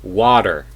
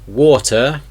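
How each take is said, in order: First: The middle consonant sounds like a D. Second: The middle consonant is a crisp T. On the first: "a T being sounded like a D sound" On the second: "in the British English accent"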